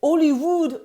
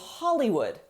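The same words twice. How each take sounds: First: It is said with a French pronunciation. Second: It is said with an English pronunciation.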